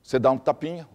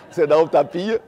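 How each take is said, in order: First: Said in the usual way. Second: Laughing through the repeat, a bit louder; amused repeat with a laugh. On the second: Shown as a demonstration.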